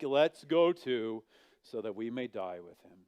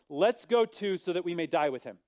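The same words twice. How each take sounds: First: It is said in a gloomy Eeyore voice. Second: It is said in a normal reading voice.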